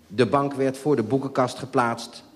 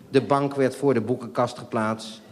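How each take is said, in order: First: Said in the usual way. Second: A laugh breaking through the sentence. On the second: Real, not acted. Narrator laughing at the sofa being moved again. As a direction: read it while cracking up. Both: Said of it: "Wat even".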